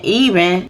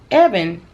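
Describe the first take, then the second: First: The name sounds like the word 'even'. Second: The name sounds like the name 'Evan'. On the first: The speaker calls it wrong. "I was pronouncing it wrong. Been saying even" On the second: The speaker calls it right. "they actually said it was pronounced Evan"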